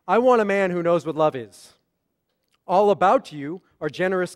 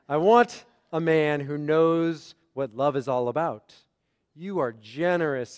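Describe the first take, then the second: First: The break comes after 'is'. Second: The break comes after 'about'.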